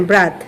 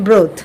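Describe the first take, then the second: First: ব্রাথ with an open "a"; BROTH as in brother. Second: ব্রোথ with a rounded "o", falling; broth with O. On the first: Teacher isolates start of brother, ব্রাথ with open a. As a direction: say ব্রাথ like brother cut before its ending. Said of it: "উচ্চারণ কিন্তু এতটুকুই হবে". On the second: Teacher contrasts with brother, ব্রোথ with rounded o. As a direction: say ব্রোথ with o and final th. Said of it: "আর এখানে হচ্ছে". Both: Shown as a demonstration.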